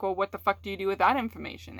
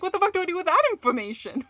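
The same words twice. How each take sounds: First: Said in the usual way. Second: Much higher, fast and rushed; exasperated disbelief. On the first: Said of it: "repeated line, plainer take". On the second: Retold or imitated. Speaker voices her own baffled reaction to a partner, high and exasperated. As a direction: blurt it out in baffled panic. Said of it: "And you're just like".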